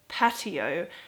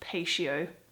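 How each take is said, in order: First: The middle consonant is a plain t sound. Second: The middle consonant is an sh sound. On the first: The speaker calls it right. "it's pronounced completely different" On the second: The speaker calls it wrong. "I thought it would be pronounced patio, but it's not"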